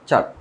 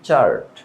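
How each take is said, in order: First: No r sound is pronounced after the vowel. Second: An r sound is pronounced after the vowel. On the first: The speaker calls it right. "এখানে আরের উচ্চারণটা হবে না" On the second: The speaker calls it wrong. "আমরা এটাকে বলি চার্ট"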